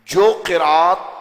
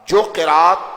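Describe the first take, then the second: Both takes have the same delivery.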